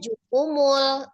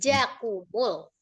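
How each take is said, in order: First: The first vowel is u after the j. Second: The first vowel is a after the j. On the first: The speaker calls it wrong. "Jimnya tadi bacanya jukumul" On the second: The speaker calls it right. "Jimnya fathah, bukan doma"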